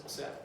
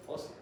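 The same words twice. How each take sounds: First: "ósea" said as o-SE-a, stress moved off the O; wrong stress on "ósea". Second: "ósea" as Ó-sea, first vowel stressed. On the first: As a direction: misplace the accent in "ósea" onto the E. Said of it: "una palabra con acento en la O, no es". ("ósea" mal acentuada, como "o sea") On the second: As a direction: put the accent of "ósea" on the opening O. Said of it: "una palabra con acento en la O". ("ósea" con acento en la O) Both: Shown as a demonstration.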